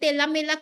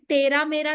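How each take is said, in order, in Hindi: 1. r की जगह l ध्वनि बोली गई है। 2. ये शब्द साफ़ r ध्वनि के साथ बोले गए हैं। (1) "तोतला के बोल रहा है" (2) "तेरा मेरा ना बोल के"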